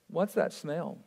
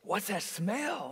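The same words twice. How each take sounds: First: It is said in a flat, neutral tone. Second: It is said in a delighted, pleased tone. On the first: "You never say it like that" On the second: "And if it's a good smell, oh"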